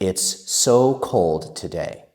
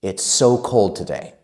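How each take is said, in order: First: It is spoken at a moderately quick pace. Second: It is spoken at a fast, fluent pace. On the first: "Let's say it faster" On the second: "And faster"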